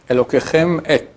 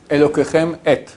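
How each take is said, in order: No difference in how they are said.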